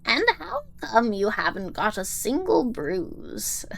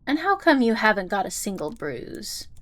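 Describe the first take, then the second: First: It is said in a put-on old woman's voice. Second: It is said in a natural, ordinary voice. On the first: The speaker calls it right. "I gotta get into my old lady voice" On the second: The speaker calls it wrong. "Oh, sorry, I forgot"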